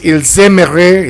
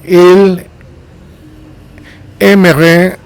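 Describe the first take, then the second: First: It is said with a z sound linking. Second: It is said without a z sound linking. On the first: "naturally you would pronounce it and make the liaison or the linking with the S" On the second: "it's fine"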